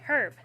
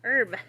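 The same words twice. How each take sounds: First: "herb" with an audible H; H pronounced. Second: "herb" as "erb", H dropped; silent H. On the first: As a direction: say "herb" with the H sounded at the start. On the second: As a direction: correct it to "herb" with no H sound. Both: Shown as a demonstration. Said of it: "I'm saying herb".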